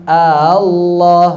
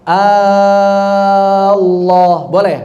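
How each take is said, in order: First: The second hamzah is softened, with no long stretch. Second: The opening hamzah becomes a long stretched vowel. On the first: "Boleh juga tashil" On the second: "diibdal menjadi mad"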